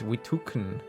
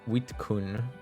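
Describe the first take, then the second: First: The name is said with three syllables. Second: The name is said with two syllables. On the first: The speaker calls it right. "the K is after the U, so it's Witukun" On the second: The speaker calls it wrong. "I swear I've always called you Wit Witkun"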